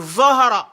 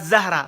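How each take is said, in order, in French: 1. La première syllabe est un 'zo' grave et appuyé. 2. La première syllabe est un 'za' simple et léger. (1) "c'est Zohara. Zo dans le, au niveau du ventre" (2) "C'est pas Zahra"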